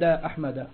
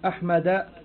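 First: The word ends without any added 'n' sound. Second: The word ends with an added 'n' sound. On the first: The speaker calls it right. "إنما تقول أحمد" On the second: The speaker calls it wrong. "ولا تقول أحمد"

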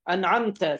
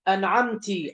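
First: The word ends in a t followed by a. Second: The word ends in a t followed by i. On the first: The Lord is being addressed. The speaker calls it right. "تاء الخطاب لرب العالمين" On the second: A female is being addressed. The speaker calls it wrong. "بالتاء المكسورة، خطاب للمؤنث"

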